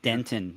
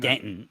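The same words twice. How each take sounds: First: The middle T sound is clearly pronounced. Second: The middle T sound is dropped. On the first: The speaker calls it wrong. "you can't say ... That you don't pronounce the T" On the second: The speaker calls it right. "got to say"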